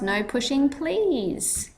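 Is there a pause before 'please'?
no. There is no pause before please.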